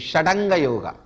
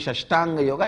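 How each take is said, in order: First: The first word has a 'd' sound. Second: The first word has a 'sht' sound. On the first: The speaker calls it right. "it should be Shadanga Yoga" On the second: The speaker calls it wrong. "it should not be Shashtanga Yoga"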